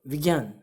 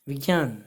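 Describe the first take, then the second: Both takes have the same delivery.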